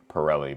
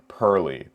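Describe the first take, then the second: First: The name is said like 'Pirelli'. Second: The name is said like 'Pearly'. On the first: The speaker calls it wrong. "People got really mad at me when I pronounced it Pirelli before" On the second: The speaker calls it right. "so I'll try to say Pearly"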